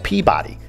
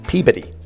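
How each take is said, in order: First: It is said as spelled, outsider style. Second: It is said the local Massachusetts way. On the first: The speaker calls it wrong. "No, no, no, no" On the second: The speaker calls it right. "That's how you say it in Massachusetts"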